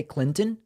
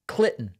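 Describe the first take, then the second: First: Said in the usual way. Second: Clinton with the first N dropped, "Clitton"; mimicked mispronunciation. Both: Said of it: "she can't say Clinton".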